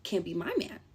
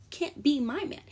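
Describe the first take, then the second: First: Said in the usual way. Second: Higher sassy repeat. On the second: Shown as a demonstration. To the ex, higher sassy verdict.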